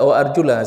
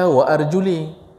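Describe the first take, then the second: First: The last word ends in an 'a' vowel. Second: The last word ends in an 'i' vowel. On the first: The feet are to be washed. The speaker calls it right. "sama-sama baris atas" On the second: The feet are to be wiped. The speaker calls it wrong. "Orang Syiah baca wa arjuli, salah, baris beda"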